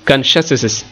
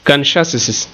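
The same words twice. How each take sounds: Both takes have the same delivery.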